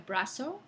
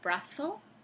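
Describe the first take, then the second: First: The z is said as a plain s. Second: The z is said as a th sound. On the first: This is a present-day pronunciation. "hoy en día brazo" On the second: This is how people in Spain say it. "dicen los españoles brazo"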